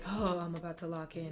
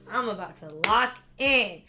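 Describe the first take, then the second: First: It sounds reluctant and dreading. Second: It sounds eager and excited.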